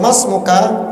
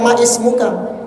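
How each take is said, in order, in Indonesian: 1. Bunyi i dihilangkan, menyambung menjadi 'masmuka'. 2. Bunyi i pada 'ismuka' diucapkan terpisah. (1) "Langsung masmuka gitu aja" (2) "Antum jangan baca ma ismuka"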